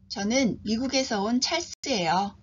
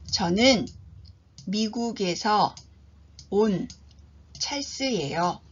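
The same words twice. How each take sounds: First: It is spoken at a normal, natural speed. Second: It is spoken slowly and deliberately. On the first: "표준 속도로 제가 두 번 들려드립니다" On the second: "천천히 한 번 들려드립니다"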